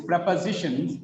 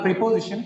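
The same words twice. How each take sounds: First: "prepositions" with a short e in the first syllable; corrected "prepositions". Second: "preposition" with a long ee in the first syllable; mispronounced "preposition". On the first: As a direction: say "prepositions" as PREP-uh-zi-shuns. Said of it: "it is prepositions". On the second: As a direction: say "preposition" as PREE-po-zi-shun. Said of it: "it is not preposition". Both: Shown as a demonstration.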